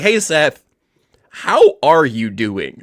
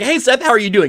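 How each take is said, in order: First: It is asked with warm, sincere concern. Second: It is asked in a casual, offhand way.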